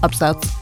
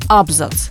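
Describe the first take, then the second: First: The stress is on the second syllable. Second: The stress is on the first syllable. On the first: This is the modern norm. "а потом со временем уже стал абзац" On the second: This was the old pre-revolutionary norm. "нормально было говорить «абзац»"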